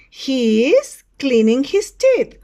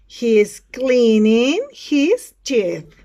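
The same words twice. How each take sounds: First: Slow, loud classroom model; model sentence for repeating. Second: Very slow, loud and drawn out; word-by-word model sentence. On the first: Teacher describes a picture to students, slow loud model delivery. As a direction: project it slowly for students to copy. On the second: Teacher repeats for students, very slow word-by-word delivery. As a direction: stretch each word at full classroom volume. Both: Shown as a demonstration. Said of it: "Repeat after me".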